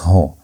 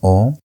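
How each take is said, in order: First: The vowel starts with an h sound. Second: The vowel is said with no h sound. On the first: The speaker calls it right. "but it's Ho" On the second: The speaker calls it wrong. "it's not O"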